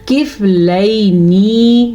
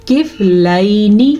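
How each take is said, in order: First: کفلینی with the last "nee" stretched out long; slow کفلینی with an over-long closing vowel; wrong long ending. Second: کفلینی with "lai" held and a short final "ni"; کفلینی recited with a brief closing vowel; correct short ending. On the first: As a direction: drag out the final syllable of کفلینی. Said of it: "نہیں پڑھنا". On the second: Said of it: "ہم نے پڑھنا ہے". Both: Shown as a demonstration.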